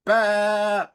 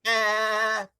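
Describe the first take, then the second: First: Loud, high ram bleat; Alec Baldwin's ram voice. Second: Bleating like a ram. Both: Retold or imitated. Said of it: "Alec Baldwin's ram voice".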